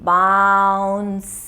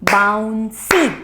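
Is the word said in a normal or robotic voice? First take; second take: robotic; normal. First: It is said in a robot voice. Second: It is said in a normal voice.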